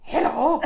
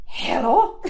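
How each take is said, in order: First: Hello through a laugh. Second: Imitating his hello. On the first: Retold or imitated. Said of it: "it took all of my strength to not just go". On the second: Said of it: "he just went".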